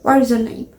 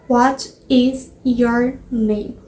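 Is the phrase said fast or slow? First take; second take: fast; slow. First: The phrase is said quickly and run together. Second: The phrase is said slowly and carefully. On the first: "Eles falam, tipo, mais rápido" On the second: "Eles não falam isso"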